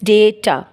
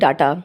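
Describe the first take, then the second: First: The first vowel sounds like 'ay'. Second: The first vowel sounds like 'ah'. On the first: The speaker calls it right. "The right word is डेटा" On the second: The speaker calls it wrong. "There are some people who call डेटा like डाटा"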